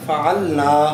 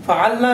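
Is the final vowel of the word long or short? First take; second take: long; short. First: The final vowel is stretched long. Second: The final vowel is said short. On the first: We did it. The speaker calls it right. "इसको थोड़ा हम खींच के एक अलिफ के बराबर फ़ाल ना इस तरह पढ़ेंगे" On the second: Several women did it. The speaker calls it wrong. "फ़ालना नहीं पढ़ेंगे"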